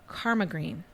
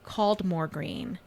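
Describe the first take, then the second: First: The first word sounds like 'karma', without an L. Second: The first word is said as spelled, 'cald-more'. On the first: The speaker knows the area well. "he used the local pronunciation" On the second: The speaker is unfamiliar with the area. "someone who isn't familiar with the area would have pronounced it"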